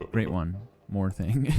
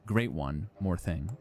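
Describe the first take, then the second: First: Broken phrasing, pause after great, one joined to more thing; stumbling read-aloud cadence; wrong cadence. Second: Great one said as one unit, then more thing with a small rise; imitating his own stumbling read; mock wrong cadence. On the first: Real, not acted. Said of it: "wrong cadence because you're not sure". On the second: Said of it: "read something with the wrong cadence".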